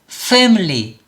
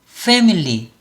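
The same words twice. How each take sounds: No difference in how they are said.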